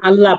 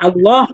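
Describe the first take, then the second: First: The word is pronounced with a light, thin sound. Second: The word is pronounced with a heavy, full sound.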